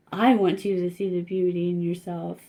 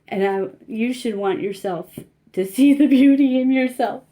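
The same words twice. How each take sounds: First: Said in the usual way. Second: Real tears breaking through, half laughing; tearful and laughing at once, louder; choked up. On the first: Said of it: "got a little choked up". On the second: Real, not acted. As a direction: push through the lump in the throat. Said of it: "That's why I got a little choked up there".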